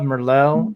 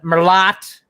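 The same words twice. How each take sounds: First: The final T is silent. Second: The final T is clearly pronounced. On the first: This is the usual way to say it. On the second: This is the speaker's own Ohio way of saying it.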